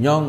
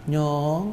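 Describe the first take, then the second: First: The word is said flat, without melody. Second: The word is said with a soft melodic lilt. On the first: This is not how the local people say it. "jadi bukan Nyong gitu gitu" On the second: This is how the local people say it. "Jadi ada, alunan"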